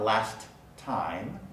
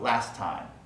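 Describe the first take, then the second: First: The t at the end of last is pronounced. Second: The t at the end of last is dropped. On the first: The speaker calls it wrong. "Not last time" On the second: The speaker calls it right. "I don't pronounce the middle T, just last time"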